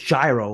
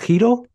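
First: The word begins with a j sound. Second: The word begins with a y sound. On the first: The speaker calls it wrong. "I don't think it's gyro. I think that's wrong" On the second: The speaker calls it right. "Pretty sure it's Hilo"

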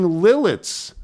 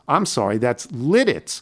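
First: The middle consonant sounds like an l. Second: The middle consonant sounds like a d. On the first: The speaker calls it wrong. "I kept saying Lilitz earlier in the show" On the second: The speaker calls it right. "That's Lidditz"

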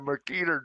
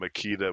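First: It is said with an imitated German accent. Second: It is said in the speaker's plain accent.

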